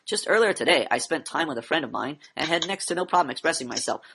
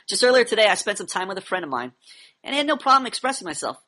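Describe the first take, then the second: First: It sounds flat, like reading an essay. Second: It sounds lively, like natural conversation.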